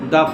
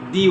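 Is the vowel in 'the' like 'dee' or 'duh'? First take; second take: duh; dee. First: The word ends in a short 'uh' vowel. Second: The word ends in a long 'ee' vowel. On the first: The next word begins with a consonant sound. "সেই সমস্ত ওয়ার্ডগুলোর আগে আমরা দা ব্যবহার করব" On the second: The next word begins with a vowel sound. "এই সমস্ত ওয়ার্ডগুলোর আগে আমরা যখন উচ্চারণ করব তখন সেটা দি হবে"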